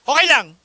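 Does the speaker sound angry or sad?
angry. It is said in an angry tone.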